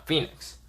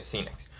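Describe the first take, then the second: First: Said in the usual way. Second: Phoenix said with an S sound at the start; "Phoenix" starting like "see" instead of "fee"; mispronounced Phoenix. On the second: Shown as a demonstration. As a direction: say Phoenix as "seenix". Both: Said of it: "I don't know why I say".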